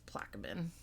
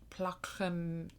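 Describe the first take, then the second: First: The name is pronounced in an English style. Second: The name is pronounced in a French style. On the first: The speaker calls it right. "but it's not. It's Plaquemine" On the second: The speaker calls it wrong. "I really wanted it to be more French"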